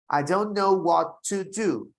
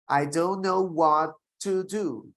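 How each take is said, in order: Both takes have the same delivery.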